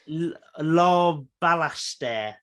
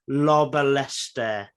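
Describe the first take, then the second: First: The surname is said carefully and clearly. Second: The surname is said in a garbled way. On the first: The speaker calls it right. "is the way I should have pronounced it" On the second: The speaker calls it wrong. "I've definitely bu- butchered that"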